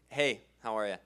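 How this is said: It is said in a confident, stern manner.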